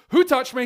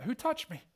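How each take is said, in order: First: Sharp loud question, high; booming challenge; loud demand. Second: Gentler version. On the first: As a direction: call it out loud into the crowd. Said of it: "Jesus turns and goes". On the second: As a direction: ask it lightly. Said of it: "Maybe he's like". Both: Retold or imitated.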